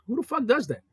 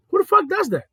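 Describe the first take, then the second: First: Said in the usual way. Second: Higher, louder repeat of Who the fuck does that; exasperated outburst. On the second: Shown as a demonstration. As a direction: throw the question up loud.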